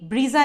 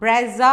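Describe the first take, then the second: First: The first vowel is a long 'ee'. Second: The first vowel is a short 'e'. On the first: The speaker calls it wrong. "ब्रीजा नहीं होती" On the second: The speaker calls it right. "ब्रेजा होती है"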